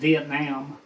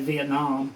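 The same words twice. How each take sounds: First: The last syllable has an open 'ah' vowel. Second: The last syllable has a rounded 'oh' vowel. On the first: Other people say it this way. "Some people call it Vietnam" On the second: This is the speaker's habitual way. "I've always called it Vietnam. I guess it doesn't have an O in it"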